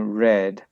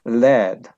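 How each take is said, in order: First: The word begins with an R sound. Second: The word begins with an L sound. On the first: The speaker calls it right. "instead of saying red" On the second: The speaker calls it wrong. "they say the le instead of saying ra"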